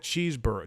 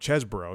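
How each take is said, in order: First: The name begins with a long 'cheese' sound. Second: The name begins with a short 'chess' sound.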